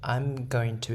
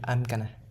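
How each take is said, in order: First: Going to is said in full. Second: Going to is reduced to gonna. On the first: "I'm going to into I'm gonna" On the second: "I'm going to into I'm gonna"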